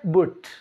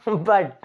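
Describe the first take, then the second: First: The vowel is rounded like in put. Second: The vowel is open like in cup. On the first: The speaker calls it wrong. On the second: The speaker calls it right.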